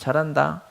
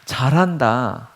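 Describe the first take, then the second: First: It is said curtly and dismissively. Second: It is said warmly with real feeling. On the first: The listener is brushed off and ignored. "무시하고 가는 거고" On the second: The praise is sincerely meant. "정말 우리의 마음과 감정과 표현을 담아서"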